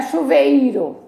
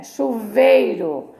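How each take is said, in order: First: "chuveiro" as chu-ve-I-ro, the i on its own; "chuveiro" in four syllables; wrongly split vowels. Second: "chuveiro" slowly as chu-VEI-ro; "chuveiro" in three syllables, vei whole; joined diphthong. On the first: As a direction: break vei in "chuveiro" into ve and a stressed i. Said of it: "Não é chuveiro". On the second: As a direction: glide the ei of "chuveiro" in one stretched syllable. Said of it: "é chuveiro". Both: Shown as a demonstration.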